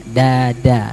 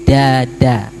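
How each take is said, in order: The two takes are said the same way.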